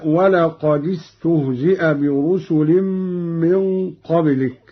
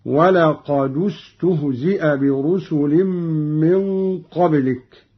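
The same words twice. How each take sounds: First: ولقد استهزئ linked with an i, walaqadistuhzi'a; reference reading. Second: ولقد استهزئ linked with a u, walaqadustuhzi'a; damma on dal. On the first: Reciter giving the verse before the variant, ولقد joined with i. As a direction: put a short i on the dal of ولقد. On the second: Reciter showing Qalun's reading, ولقد joined with u. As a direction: put a short u on the dal of ولقد. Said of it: "قرأ قالون بضم أولى الساكنين". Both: Shown as a demonstration.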